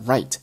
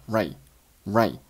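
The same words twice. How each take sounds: First: Said in the usual way. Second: "right" stopped short, t held back unreleased; unreleased final t. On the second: Shown as a demonstration. Teacher showing learners unexploded t, "right" ending as "righ-". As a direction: say "right" without popping the t. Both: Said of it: "right结尾的t没有爆出来".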